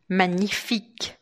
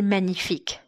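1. A palavra é dita devagar e com cuidado exagerado. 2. A palavra é dita rapidamente dentro de uma frase fluida. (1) "Aqui eu forcei um pouco" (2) "se eu falar mais rapidamente"

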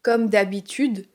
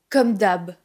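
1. Le dernier mot est prononcé en entier. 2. Le dernier mot est raccourci.

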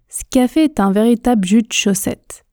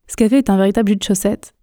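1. La phrase est prononcée lentement, avec des réductions. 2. La phrase est prononcée vite, à pleine vitesse. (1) "Je prononce une fois lentement, mais en faisant toutes ces contractions" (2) "on y va ensemble à la vitesse express"

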